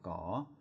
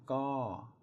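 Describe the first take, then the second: First: The syllable is said with a rising tone. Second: The syllable is said with a falling tone. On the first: "My chatawa is a rising tone" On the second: "My to is a falling tone"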